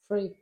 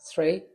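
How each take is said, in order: First: The word starts with an f sound. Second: The word starts with a th sound. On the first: The speaker calls it wrong. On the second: The speaker calls it right.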